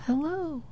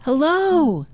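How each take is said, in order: First: The hello comes back much softer; faint echo. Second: Put-on boy calls high toward the woods; calling out. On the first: Retold or imitated. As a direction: let it fade as an echo. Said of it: "He heard an echo". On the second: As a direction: call hello again, hopeful. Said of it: "and he says".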